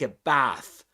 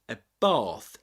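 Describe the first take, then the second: First: It is said in an American accent. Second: It is said in a British accent. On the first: "We take a bath in American English" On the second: "in British English"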